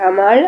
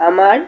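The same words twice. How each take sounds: The two takes are said the same way.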